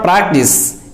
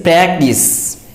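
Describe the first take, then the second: First: PRACTICE as "PRAHK-tis"; mispronunciation. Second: PRACTICE slowly, with the a of cat; correct pronunciation. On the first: Teacher rejects the common error, practice mispronounced "PRAHK-tis". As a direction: use a back a in PRACTICE. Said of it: "but it is not practice". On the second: Teacher corrects learners, practice slowly pronounced with cat vowel. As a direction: draw out PRACTICE as "PRAK-tis", cat vowel. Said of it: "it is practice". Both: Shown as a demonstration.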